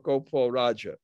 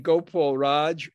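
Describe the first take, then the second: First: The name ends with a short final 'a' vowel. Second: The name ends on 'Raj' with no final vowel. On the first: "the last A is short" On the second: "it can be left out if you want"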